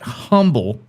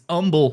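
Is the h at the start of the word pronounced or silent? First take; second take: pronounced; silent. First: The word begins with an audible h sound. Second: The word begins with a vowel, no h. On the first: The speaker calls it wrong. "You don't say it's not humble" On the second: The speaker calls it right. "even though it's spelled H U M B L E. It's Humble"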